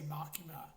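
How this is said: The name is said with an English pronunciation. The speaker calls it wrong. "in English, they'll say Makima"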